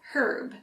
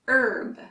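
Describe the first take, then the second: First: The word begins with an H sound. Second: The word begins without an H sound. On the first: "the British actually use herb" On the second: "for Americans, the H is silent"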